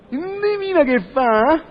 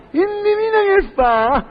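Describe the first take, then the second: First: Slow, teasing "Indovina che fa?"; building suspense. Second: "Indovina che fa?" slow and high-pitched; heightened suspense. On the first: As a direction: stretch "Indovina che fa?" to hold the listener. First take of suspense question. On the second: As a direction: raise and stretch "Indovina che fa?". Repeat, raised for suspense. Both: Acted.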